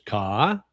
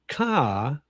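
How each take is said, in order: First: The word is said with a rising pitch. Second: The word is said with a falling pitch. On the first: "which is rising tone" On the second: "which is falling tone"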